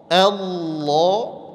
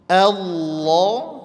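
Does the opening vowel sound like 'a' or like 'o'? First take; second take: a; a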